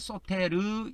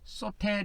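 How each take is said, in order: First: The word is drawn out, ending in a full syllable. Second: The word is said short, ending in a clipped l.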